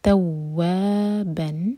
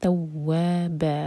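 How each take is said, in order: First: The word ends with a nasal 'n' sound. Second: The word ends with a long vowel. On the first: The reciter keeps going without stopping. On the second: The reciter stops on this word.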